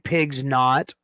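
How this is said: The s sound ends the first word. This is probably the real name. "Probably pigs not"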